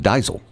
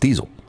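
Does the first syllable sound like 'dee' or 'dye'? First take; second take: dye; dee. First: The first syllable has an 'eye' vowel. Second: The first syllable has an 'ee' vowel. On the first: This is how it would be read if spelled D E I S E L. "If it were D E I S E L, it would be diesel" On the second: This is how the actual spelling D I E S E L is read. "but it's diesel. You always pronounce the second vowel long"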